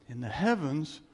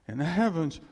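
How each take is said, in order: Both takes have the same delivery.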